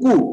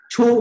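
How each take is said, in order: First: It begins with a hard k and a u. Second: It begins with a ch sound and a ü. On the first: The speaker calls it wrong. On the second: The speaker calls it right.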